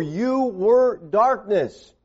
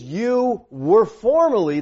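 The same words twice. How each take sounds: First: Very slow, heavy weight on "were"; emphatic were. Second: Slow, stressing "were" and "formerly"; emphatic were. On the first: Preacher drives home the past, slow heavy "were". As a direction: drag out "You were darkness", punching "were". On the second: Preacher to congregation, slow emphatic "were". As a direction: lean hard on "were" in "You were formerly". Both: Shown as a demonstration. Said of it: "the verb were here is emphatic".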